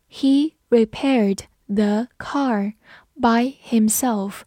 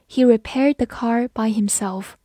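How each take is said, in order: First: Slow, with a gap between words; slow read-along. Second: Said in the usual way. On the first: Shown as a demonstration. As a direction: lead learners through it slowly. (慢慢地逐词朗读) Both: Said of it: "慢慢来读".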